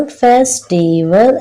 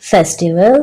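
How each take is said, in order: First: फेस्टिवल slowly broken into three beats, फेस-टि-वल; syllable by syllable. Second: Said in the usual way. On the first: Shown as a demonstration. Teacher showing children three syllables, फेस्टिवल said slowly in parts. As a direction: sound out फेस्टिवल slowly, one syllable at a time. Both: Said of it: "इसमें three syllables हैं".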